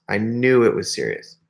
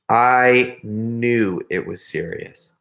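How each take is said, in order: First: Said in the usual way. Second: Slow, drawn-out "I knew it was serious"; grave emphasis. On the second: Retold or imitated. Storyteller dwelling on a friend's grave news, slow emphasis. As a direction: stretch "I knew" out slowly and gravely. Gravely repeats the point for effect.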